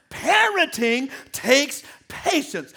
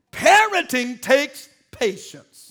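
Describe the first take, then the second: First: "Parenting takes patience" slow, each word leaned on; emphasis. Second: "Parenting takes patience" slow, loud, each word weighted; emphasis. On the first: Preacher repeats "Parenting takes patience" for the church, slow. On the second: Preacher stresses "Parenting takes patience" to the saints, slow and heavy. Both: Acted. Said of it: "Did you hear the emphasis on that?".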